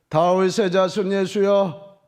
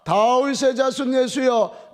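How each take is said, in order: First: It is said in a raised, loud voice. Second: It is said louder still, nearly shouting.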